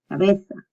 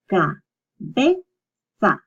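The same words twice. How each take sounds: First: Said in the usual way. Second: "cabeza" very slowly as ca, be, za; long gaps between each syllable of "cabeza". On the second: Shown as a demonstration. Teacher sounding out a word for learners, "cabeza" in separate syllables. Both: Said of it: "you separate the two".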